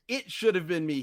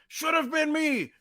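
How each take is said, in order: First: It is said calmly, without screaming. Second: It is screamed in a deranged way.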